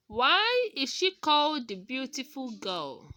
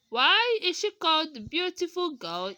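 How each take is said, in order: First: Put-on "Why is she called the beautiful girl?" with the voice falling at the end. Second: Put-on "Why is she called the beautiful girl?" with the voice rising at the end. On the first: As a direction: let the voice drop on "girl". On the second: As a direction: lift the voice on "girl". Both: Shown as a demonstration. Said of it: "is a W H question".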